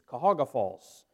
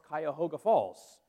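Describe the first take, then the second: First: The first word is shortened to three syllables. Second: The first word keeps all four syllables. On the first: The speaker is from the town. The speaker calls it right. "everybody from Cuyahoga pronounces it Cahoga" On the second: The speaker is not from the town. The speaker calls it wrong. "how you pronounce Cuyahoga Falls"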